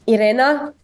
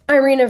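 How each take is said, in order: First: The name is said with non-English pronunciation. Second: The name is said with English pronunciation. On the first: "I would say Irena" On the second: "I think it's Irina for English"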